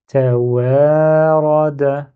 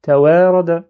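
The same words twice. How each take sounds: First: Slow, louder, joined syllables; a slow demo of fluent reading; slow and fluid. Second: Fast fluent reading, letters run together; a rushed demo of ta wa ra da. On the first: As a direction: stretch Tawarada out with no break between letters. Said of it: "avec fluidité, mais lentement". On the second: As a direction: rattle the syllables off quickly. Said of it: "mais très très rapide". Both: Shown as a demonstration.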